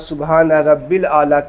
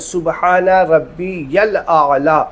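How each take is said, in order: First: The middle word is said as 'rabbil'. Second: The middle word is said as 'rabbi-yal'. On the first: The speaker calls it wrong. "बहुत सारे लोग यहाँ पे ... कहते हैं, नहीं" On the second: The speaker calls it right. "सुबहान रब्बी यल आला तीन बार कहें"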